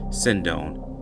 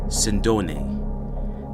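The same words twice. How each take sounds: First: The surname is said in an Americanized way. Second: The surname is said in its original Italian way. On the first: This is how the news and associates said the name. "the traditional media pronunciation" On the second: This is how the family name is properly said. "based on his surname, it is pronounced Sindone"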